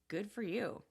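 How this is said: It is said in a dry, dismissive tone. The speaker does not really care about the news. "That might sound dismissive"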